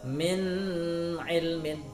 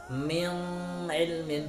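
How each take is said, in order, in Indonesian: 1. Huruf n dibaca dengan dengung. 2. Huruf n dilunakkan, hampir tidak terdengar. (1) "dibaca dengan dengung seperti" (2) "dibaca dengan samar"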